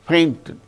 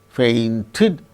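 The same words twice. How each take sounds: First: The stress is on the first syllable. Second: The stress is on the last syllable. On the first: The speaker calls it right. "The stress should be only on the first syllable" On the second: The speaker calls it wrong. "The stress shall not be on the last syllable"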